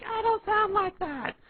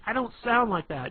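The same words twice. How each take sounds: First: Slow, loud, shrill falsetto parroting; drawn-out high-pitched mockery; mocking girlfriend impression. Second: Higher, louder indignant protest; raised-pitch mock protest; protesting girlfriend. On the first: Shown as a demonstration. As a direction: mimic her protest in a squeaky voice. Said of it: "And you're like". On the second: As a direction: object like an offended girlfriend. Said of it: "and she'll be like".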